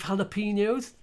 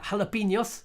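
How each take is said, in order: First: It is said with an English pronunciation. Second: It is said with a Spanish pronunciation.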